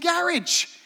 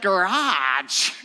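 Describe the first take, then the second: First: It is said with a British pronunciation. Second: It is said with an American pronunciation. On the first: This is how speakers would talk had the war been lost. "we might all be saying garage" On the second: This is how speakers talk now that the war was won. "instead of garage"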